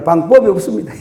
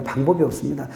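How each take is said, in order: First: Gyeongsang dialect, breaking into a laugh; Gyeongsang accent. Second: Said in the usual way. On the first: Shown as a demonstration. Preacher joking that there's no way out, in Gyeongsang accent. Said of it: "경상도 말로". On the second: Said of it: "경상도 말로 방법이 없습니다".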